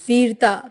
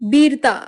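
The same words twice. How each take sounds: First: It is said with a standard Hindi accent. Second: It is said with a Bengali accent. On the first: "हिंदी उच्चारण" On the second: "बंगाली उच्चारण"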